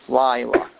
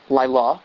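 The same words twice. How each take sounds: First: The stress is on the first syllable. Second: The stress is on the last syllable. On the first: The speaker calls it right. "emphasized on the second to last syllable, which it's only a two-syllable word, so it's the first syllable" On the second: The speaker calls it wrong. "is not Laila"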